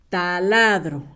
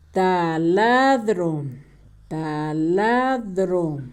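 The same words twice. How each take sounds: First: Said in the usual way. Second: "Taladro" very slow and low, in syllables; low, drawn-out dictation of "Taladro"; sounding out. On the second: Shown as a demonstration. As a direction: stretch "Taladro" out for someone writing it down. Sounds out word while writing.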